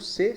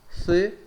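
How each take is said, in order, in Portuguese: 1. A consoante é um som de s. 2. A consoante é um som de th. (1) "es igual que en portugués" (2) "con la lengua entre los dientes"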